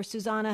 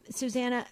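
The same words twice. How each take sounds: First: Susanna with an open "ah" in the middle; alternative name pronunciation. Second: Susanna with a flat "a" as in "can"; first name pronunciation. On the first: Host offers listener another version, Susanna said "soo-ZAH-nuh". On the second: Host tries listener's name, Susanna said "soo-ZAN-uh". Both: Shown as a demonstration. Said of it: "however you pronounce your name".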